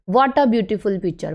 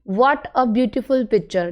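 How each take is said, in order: First: 'What a' is run together as one word. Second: 'What a' is said as two separate words. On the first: This is how native speakers say it informally. "जो native speakers है वो बोलते हैं" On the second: This is how non-native speakers say it. "हम sentence बोल रहे हैं"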